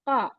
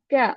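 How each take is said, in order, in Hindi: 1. व्यंजन गले की गहराई से बोला जाता है। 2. यह एक सामान्य, आगे वाली k ध्वनि है। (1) "qa, not ka" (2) "It is not ka"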